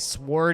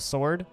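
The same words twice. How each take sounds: First: The word is said with an exaggerated, goofy pronunciation. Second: The word is said with its plain, ordinary pronunciation. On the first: "I like to say sword" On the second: "instead of sword"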